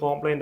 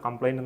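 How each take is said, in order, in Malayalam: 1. ആദ്യ അക്ഷരത്തിൽ ദീർഘമായ 'o' സ്വരമുണ്ട്. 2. ആദ്യ അക്ഷരത്തിൽ ഹ്രസ്വമായ 'uh' സ്വരമുണ്ട്. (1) "സോറി കോംപ്ലൈൻ്റ് അല്ല" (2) "കംപ്ലൈൻറ്റ് എന്നാണ് നമ്മൾ പ്രൊണൗൺസ് ചെയ്യേണ്ടത്"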